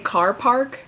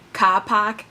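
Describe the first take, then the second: First: It is said without a Boston accent. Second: It is said in a Boston accent.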